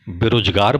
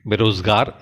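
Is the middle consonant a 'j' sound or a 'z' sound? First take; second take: j sound; z sound. First: The middle consonant is a plain 'j' sound. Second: The middle consonant is a 'z' sound. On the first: It sounds like everyday mainstream speech. The speaker calls it right. "बेरोजगार बोलें" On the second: It sets the speaker apart from mainstream speech. The speaker calls it wrong. "बेरोजगार न बोलें"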